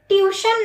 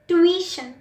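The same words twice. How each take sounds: First: There is no w sound after the t. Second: A w sound follows the t. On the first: The speaker calls it wrong. "ट्यूशन नहीं होता" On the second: The speaker calls it right. "डब्ल्यू की आवाज़ आती है T के बाद"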